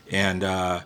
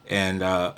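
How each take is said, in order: Both takes have the same delivery.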